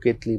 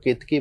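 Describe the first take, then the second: First: केतली said with an l in place of the k, ke-ta-lee; says Ketali. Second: केतकी said with a clear k in the middle, ke-ta-kee; says Ketaki. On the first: Guru gives the other popular name to the host, saying केतली with an l. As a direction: pronounce केतली with the l sound before the final ee. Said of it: "कुछ लोग केतली बोलते हैं". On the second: Guru explains the flower's name to the host, saying केतकी with a k. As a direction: pronounce केतकी with the k sound before the final ee. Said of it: "कुछ लोग केतकी बोलते हैं". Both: Shown as a demonstration.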